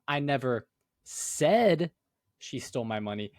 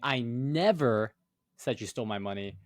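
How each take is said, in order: First: The word "said" carries the main stress. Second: The word "never" carries the main stress. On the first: It was conveyed some other way, not spoken. "Maybe you like texted it, you know?" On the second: It absolutely was not said. "then you're saying, oh, like it absolutely did not happen"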